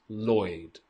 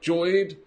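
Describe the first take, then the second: First: The name begins with a clear L sound. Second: The name begins without an L sound. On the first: The speaker calls it right. "Lloyd with an L, okay? With an L sound" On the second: The speaker calls it wrong. "So not Joyd or Yoid"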